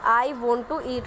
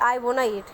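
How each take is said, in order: First: Want and to are said as separate words. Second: Want and to blend into one word, wanna. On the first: "I वॉन्ट टू eat होगा" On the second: "वोन टू की जगह हम वोना का use कर सकते हैं"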